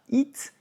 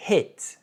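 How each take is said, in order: First: It said "eet", with a tense French I; mispronounced hit as "eet", no H, tight I; wrong French-style I. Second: Crisp English "hit", H sounded, vowel toward E; correct short I. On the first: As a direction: say it with a pure French ee vowel. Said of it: "c'est pas it". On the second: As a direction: hit with a short lax vowel close to French É. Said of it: "c'est un E". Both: Shown as a demonstration.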